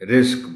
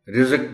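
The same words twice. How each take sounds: First: The middle consonant is said with no vowel. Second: A vowel is added after the middle consonant. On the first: The speaker calls it right. "रिज़्क बोलना है" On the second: The speaker calls it wrong. "रिज़्क बोल देते हैं लोग"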